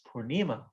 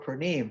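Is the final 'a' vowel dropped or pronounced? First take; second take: pronounced; dropped. First: The word ends with a long 'a' vowel. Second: The word ends without its final 'a' vowel. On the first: The speaker calls it right. "everybody in India always says Purnima" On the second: The speaker calls it wrong. "we dropped the A's. So let's say Gaur Purnim"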